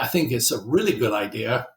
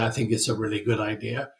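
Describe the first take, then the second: First: It is said with excited, confident enthusiasm. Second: It is said flatly, without enthusiasm. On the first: The speaker genuinely believes it. "then you actually believe it" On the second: The speaker does not really believe it. "it's probably not"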